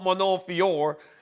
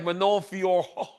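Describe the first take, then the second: First: The name ends without an extra final sound. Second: The name ends with an added 'oh' sound. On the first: The speaker calls it wrong. "So it's not just Manon" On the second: The speaker calls it right. "There's a ho on the end"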